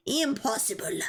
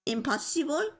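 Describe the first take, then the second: First: "Impossible." said with a firm falling finish; "Impossible." with a falling tune; settled pronunciation. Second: "Impossible?" tried out with a questioning rise; "Impossible?" with a rising question tune; trying the word. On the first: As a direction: land "Impossible." confidently. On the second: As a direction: sound out "Impossible?" as an unsure guess. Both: Shown as a demonstration. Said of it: "Try to pronounce impossible".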